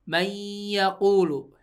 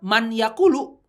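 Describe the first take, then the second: First: The n merges into a doubled, nasalized y. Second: The n is pronounced separately before the y. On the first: This is how it is recited. The speaker calls it right. "tapi bacanya pastikan mayyaqulu" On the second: This is how it is written. The speaker calls it wrong. "Tulisannya man yaqulu ya"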